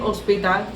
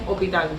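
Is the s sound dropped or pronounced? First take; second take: pronounced; dropped. First: The s sound is clearly pronounced. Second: The s sound is dropped. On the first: The speaker calls it right. "En vez de decir hospital" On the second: The speaker calls it wrong. "dicen hospital"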